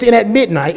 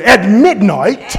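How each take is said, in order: First: Said in the usual way. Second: Slow drawn-out preaching cadence. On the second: Shown as a demonstration. Preacher shows how to preach the line, slow and grand. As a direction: stretch it out like a revival preacher. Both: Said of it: "you gotta preach it real good".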